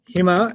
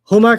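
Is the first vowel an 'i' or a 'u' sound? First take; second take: i; u. First: The first vowel is an 'i' sound. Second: The first vowel is an 'u' sound. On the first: "it just sounds happier sometimes" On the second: "Huma can sometimes sound like"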